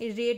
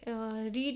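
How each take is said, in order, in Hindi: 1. स्वर छोटा है, 'red' जैसा। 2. स्वर लंबा है, 'reed' जैसा। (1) "रेड इसे प्रोनाउंस करेंगे" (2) "ये रीड नहीं"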